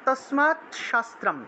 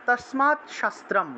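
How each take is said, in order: First: The words split with a t then sh sound. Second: The same.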